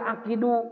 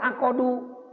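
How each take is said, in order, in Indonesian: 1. Vokal i ada di antara k dan d. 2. Vokal o ada di antara k dan d. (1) "Kenapa tidak akidu?" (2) "Kenapa tidak akodu?"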